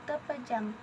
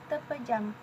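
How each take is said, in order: No difference in how they are said.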